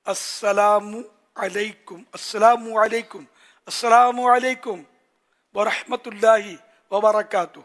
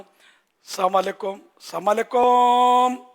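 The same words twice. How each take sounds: First: Slow, fully pronounced "السلام علیکم ورحمۃ اللہ وبرکاتہ", every syllable clear; clear full salam. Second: Slow, slurred "السلام علیکم" with the ending swallowed; mock the sloppy "السلام علیکم", drawn out and mumbled; mumbled wrong salam. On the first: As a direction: teach the full "السلام علیکم" clearly and slowly, a bit louder. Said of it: "اگر رٹ لینا". (صاف اور ٹھہر کر پورا "السلام علیکم") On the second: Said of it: "اس طرح کر رہے ہوتے ہیں". (غلط انداز میں چبا کر "السلام علیکم") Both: Shown as a demonstration.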